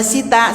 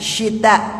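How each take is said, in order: First: The word begins with a plain s sound. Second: The word begins with an sh sound. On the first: The speaker calls it wrong. "Bukan sita" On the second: The speaker calls it right.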